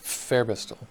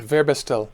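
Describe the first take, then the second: First: The name begins with an F sound. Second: The name begins with a V sound.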